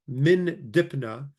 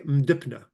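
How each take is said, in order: First: The preposition is said as a full syllable. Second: The preposition is shortened to one consonant. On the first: "instead of saying min dipna" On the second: "you can say mdipna"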